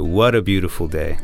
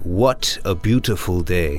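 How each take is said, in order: First: The T sounds are flapped like a soft D. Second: The T sounds are clear and crisp. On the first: This is how Americans say it. "But in America, we'd say" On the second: This is how English people say it. "English people might sound a little more like ... It sounds a little more clear"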